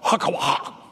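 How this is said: The name is said with a Hebrew pronunciation. "she said it with the proper Hebrew twist"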